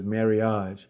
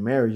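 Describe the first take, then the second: First: The word has an unusual, personal pronunciation. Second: The word has its ordinary English pronunciation. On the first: "his own way of saying it" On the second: "instead of saying marriage"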